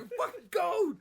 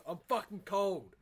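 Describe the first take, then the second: First: Much higher, louder whiny brother voice; imitating brother. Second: A hint of a whiny hungover brother, a bit louder; imitating brother. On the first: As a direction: hammer home how cold he claims to be, pitched way up. Imitating brother, escalating retelling. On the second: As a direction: mutter it like a cold, hungover sibling.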